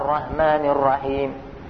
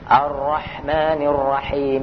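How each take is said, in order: First: The h sounds are plain and light. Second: The h sounds are deep and throaty. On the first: The speaker calls it wrong. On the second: The speaker calls it right.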